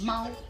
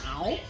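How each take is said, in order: First: The syllable is said with the first tone. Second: The syllable is said with the third tone. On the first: "The first tone is" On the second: "the third tone is"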